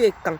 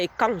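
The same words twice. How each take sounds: First: The name is said with the home-language intonation. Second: The name is said with non-native, French-style intonation. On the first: The speaker calls it right. "Je préfère avec l'intonation de chez moi" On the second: The speaker calls it wrong. "pas Ékan"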